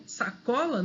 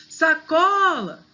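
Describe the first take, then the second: First: Said in the usual way. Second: SACOLA called out with a long, high CO; calling the word. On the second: Shown as a demonstration. Teacher showing the strong syllable, calling out saCOOla. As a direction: stretch and lift the CO in sacola. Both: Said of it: "é só chamar a palavra".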